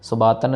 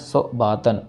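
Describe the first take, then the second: First: The two words are run together without a break. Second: The two words are said separately with a break.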